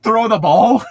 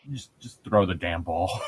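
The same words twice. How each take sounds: First: High, loud mock shout; exasperated coach. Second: Low, soft, sighing resignation; defeated coach. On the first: Coach to the player who outed himself, shouting. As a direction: shout it higher, at your wits' end. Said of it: "the coach was just like". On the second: Acted. Coach after a player accidentally outs himself, quietly defeated. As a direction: sigh it out, giving up. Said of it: "looks down and s".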